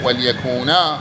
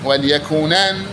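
First: The word ends with a long a vowel. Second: The word ends with an n sound. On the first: The word is read at a pause. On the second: The word is read in continuous speech.

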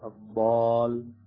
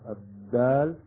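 First: The letter is said heavy and emphatic. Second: The letter is said plain and light.

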